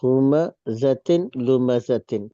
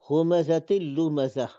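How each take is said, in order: First: The last word ends with a full 'tin'. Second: The last word ends with a short 'ah'. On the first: The reading continues without stopping. "इस तरह है हुमज़तिन लुमज़तिन" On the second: The reader stops at this word. "हम वक्फ करेंगे तो लुमज़तिन नहीं पढ़ेंगे, बल्कि क्या पढ़ेंगे, उसको हा पढ़ेंगे"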